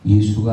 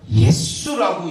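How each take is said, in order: First: It is said in a plain, ordinary way. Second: It is said strongly and forcefully.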